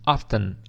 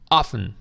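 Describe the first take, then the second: First: The T sound is clearly pronounced. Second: The T sound is silent. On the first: "você pode pronunciar a letra T dizendo often" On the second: "a letra T é muda, ela desaparece na pronúncia"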